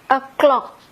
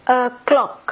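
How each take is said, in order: The two takes are said the same way.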